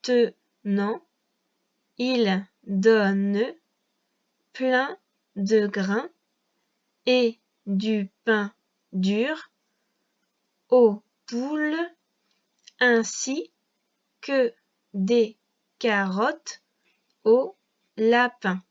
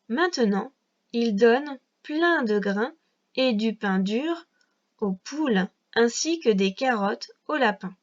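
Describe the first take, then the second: First: It is read slowly, one syllable at a time. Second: It is read smoothly, in connected phrases.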